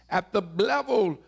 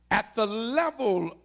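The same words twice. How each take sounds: The two takes are said the same way.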